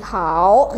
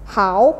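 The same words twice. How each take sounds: First: The emphasis falls on the vowel o. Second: The emphasis falls on the vowel a. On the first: The speaker calls it wrong. "bukan di hao gitu" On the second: The speaker calls it right. "bukan di o-nya tapi di a-nya"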